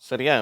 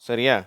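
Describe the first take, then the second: The two takes are said the same way.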